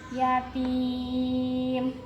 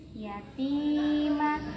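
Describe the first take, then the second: First: The word ends on the consonant m. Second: The word ends with a final vowel sound. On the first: The reading stops at the end of the verse. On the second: The reading continues without a stop.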